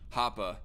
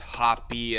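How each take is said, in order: First: The name ends in a short 'ah' vowel. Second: The name ends in a long 'ee' vowel. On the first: The speaker calls it right. "It's more like a short a sound" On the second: The speaker calls it wrong. "I've never heard anybody pronounce it as hoppy"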